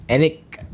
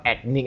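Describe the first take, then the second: First: "ethnic" set apart, higher, without the k in the middle; corrected "ethnic". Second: "ethnic" with a hard k, ek-nik; mispronounced "ethnic". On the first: Showing co-hosts the actual word, "ethnic" stressed and pitched up. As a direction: say "ethnic" carefully, lifted and rising. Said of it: "emphasize it's actually". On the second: Correcting an own slip to co-hosts, "ethnic" said as ek-nik. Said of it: "it's not ethnic". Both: Shown as a demonstration.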